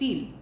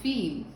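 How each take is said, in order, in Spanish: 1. La vocal es corta y breve. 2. La vocal se alarga y es larga. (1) "Es diferente de decir viel" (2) "sino viel"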